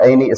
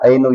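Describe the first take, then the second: First: The word ends with an i vowel. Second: The word ends with a u vowel. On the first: "ऐनु या ऐनी इस्तेमाल नहीं होता" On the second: "ऐनु या ऐनी इस्तेमाल नहीं होता"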